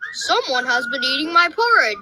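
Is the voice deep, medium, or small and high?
deep. It is said in a great big, deep voice.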